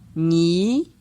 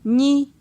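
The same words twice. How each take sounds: First: The syllable is said on a mid tone. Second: The syllable is said on a high tone. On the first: "Ton moyen" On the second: "Ton haut"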